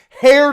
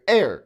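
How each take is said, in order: First: The word begins with a clear h sound. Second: The word begins with a vowel, no h sound. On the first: The speaker calls it wrong. "You wouldn't say hair to the throne" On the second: The speaker calls it right. "That's how you say ha- air"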